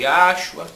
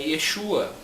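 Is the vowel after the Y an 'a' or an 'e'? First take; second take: a; e. First: The vowel after the Y is 'a'. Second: The vowel after the Y is 'e'. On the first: The speaker calls it wrong. "Uns chamam de Yashua" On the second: The speaker calls it right. "o correto é Yeshua"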